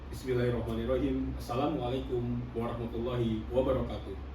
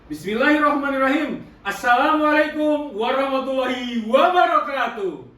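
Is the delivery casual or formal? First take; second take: formal; casual. First: It is said in a formal, deep chest voice. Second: It is said in a relaxed, casual voice. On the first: It opens an official, formal event. "yang formal nih" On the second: It opens an informal outdoor event. "bukan acara resmi formal, gampang banget"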